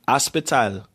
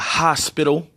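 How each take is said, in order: First: It is said in a strong Jamaican accent. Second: It is said in a plain American accent. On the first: "she still got that strong accent" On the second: "instead of hospital"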